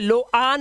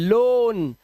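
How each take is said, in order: First: The vowel is split into o and a. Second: The vowel is one single o sound. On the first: The speaker calls it wrong. "इसे लो आन नहीं पढ़ते" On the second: The speaker calls it right. "ओ ए का उच्चारण ओ ही करना है आपको"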